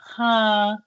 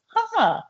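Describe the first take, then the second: First: It sounds flat and deflated. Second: It sounds lively and excited. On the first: "One is a little bit like" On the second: "more excitement"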